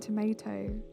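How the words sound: Tomato is said with an American pronunciation. The speaker's usual speech is slipping toward American habits. "Americanizing things a little bit more, like accidentally saying tomato"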